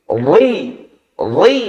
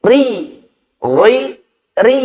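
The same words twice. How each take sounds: First: "ri" said thick and full-mouthed, tafkhim; heavy ro. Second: "ri" said light and thin, tarqiq. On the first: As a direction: make "ri" heavy and dark. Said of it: "Kalau tebal ... contohnya begini". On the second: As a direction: keep "ri" thin and bright at the front. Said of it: "Harus tipis". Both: Shown as a demonstration.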